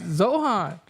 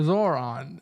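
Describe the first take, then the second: First: The name is said with an H sound. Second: The name is said with an R sound. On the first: The speaker calls it wrong. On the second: The speaker calls it right. "it's Zor Zoran"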